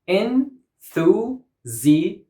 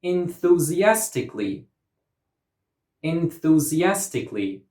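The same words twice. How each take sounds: First: "Enthusiastically" in six separate beats; syllable by syllable. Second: "Enthusiastically" with AS as the strong syllable; stress on fourth syllable. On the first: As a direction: break "Enthusiastically" apart with pauses. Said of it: "six syllables". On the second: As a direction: lean on AS in "Enthusiastically". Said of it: "stress goes on the". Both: Shown as a demonstration.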